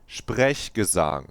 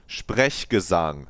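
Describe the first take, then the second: The two takes are said the same way.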